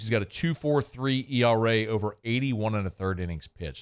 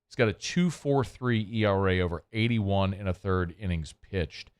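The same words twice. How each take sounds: First: It is said at normal speed. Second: It is said slowly.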